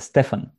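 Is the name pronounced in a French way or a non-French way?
non-French. The name is said without a French pronunciation. The speaker calls it right. "it's Stefan"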